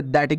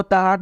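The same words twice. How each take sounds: First: दैट as one syllable with soft D; correct reading of THAT. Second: ताहट sounded out with T and H; wrong reading of THAT. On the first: Teacher giving learners the right reading, दैट as "dat". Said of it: "इसे आपको क्या पढ़ना". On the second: Teacher warning learners off a misreading, ताहट as "taa-hat". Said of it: "नहीं पढ़ना". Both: Shown as a demonstration.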